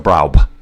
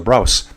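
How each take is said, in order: First: The name ends with a b sound. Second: The name ends with an s sound. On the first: The speaker calls it wrong. "with that weird little B" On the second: The speaker calls it right. "it's pronounced like a double S in Miss"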